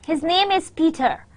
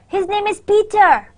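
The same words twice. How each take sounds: First: It is said as a plain, neutral statement. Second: It is said with surprise and disbelief. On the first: It simply states a fact. "this is a straightforward sentence" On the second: The speaker does not believe it. "That's kind of a surprised uh, thing that I don't believe you"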